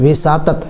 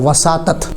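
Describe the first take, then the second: First: The first vowel is i. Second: The first vowel is a. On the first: The speaker calls it wrong. "ये विसातत लफ्ज़ गलत है" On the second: The speaker calls it right. "वाऊ के ज़बर के साथ है"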